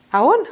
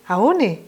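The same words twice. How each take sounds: First: "Aon" lifted upward like a question; greeting as question. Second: "Aone" falling at the end; greeting as reply. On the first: Teacher models the first greeter, rising questioning tune on Aon. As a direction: call "Aon" with a rising ending. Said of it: "Je vous dis Manaon et vous me répondez". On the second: Teacher models the returned greeting, falling answering tune on Aone. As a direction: settle "Aone" downward as an answer. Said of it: "vous me répondez Manaon". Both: Shown as a demonstration.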